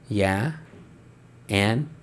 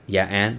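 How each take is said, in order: First: It sounds playful and flirtatious. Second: It sounds rude and dismissive.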